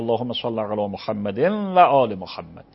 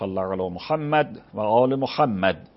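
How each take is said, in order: First: Muhammad flows smoothly into the next words. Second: A hasty stop after Muhammad, then rushing on. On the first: The speaker calls it right. "درستش اینه که" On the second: The speaker calls it wrong. "وقف میکنید و حوصله ندارید یک کمی صبر بکنید، فوری وقف میکنید وصل میکنید به بعدش"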